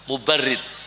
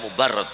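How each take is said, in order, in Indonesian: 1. Suku kata terakhir memiliki vokal 'i'. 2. Suku kata terakhir memiliki vokal 'a'. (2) "jangan dibaca Mubarrad ya"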